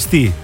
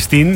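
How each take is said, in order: First: The word ends in a vowel, without n. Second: The word ends with an n sound. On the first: The speaker calls it right. "είναι στη" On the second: The speaker calls it wrong. "Δεν είναι στην"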